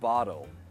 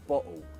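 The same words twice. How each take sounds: First: The T sounds like a soft D. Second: The T is a stop in the throat. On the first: It sounds American. "Americans would pronounce it as a D" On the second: It can sound uneducated. "Glottal tea"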